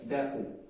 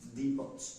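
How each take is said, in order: First: The word ends without a T sound. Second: The word ends with a T sound. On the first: The speaker calls it right. "The T is silent" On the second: The speaker calls it wrong. "not depot"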